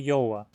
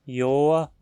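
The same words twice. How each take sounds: First: The vowel glides like a diphthong. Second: The vowel is a single long vowel. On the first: "ou como um ditongo" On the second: "como uma vogal só"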